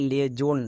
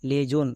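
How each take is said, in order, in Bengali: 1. মাঝের ব্যঞ্জনটি একটি z ধ্বনি। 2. মাঝের ব্যঞ্জনটি একটি z ধ্বনি।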